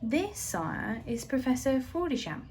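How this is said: It is read in another character's voice. The speaker calls it wrong.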